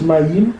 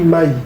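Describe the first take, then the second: First: The final consonant is clearly pronounced. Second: The final consonant is dropped entirely. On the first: "Ça se prononce Maïm" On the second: "mais on lit Maï"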